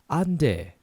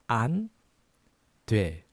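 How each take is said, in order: First: It is said faster. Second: It is said slowly.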